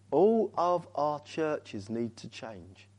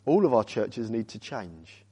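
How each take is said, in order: First: Slow and soft, each word spaced; slow, weighty repeat. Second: Said in the usual way. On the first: Real, not acted. Repeats point slowly for weight.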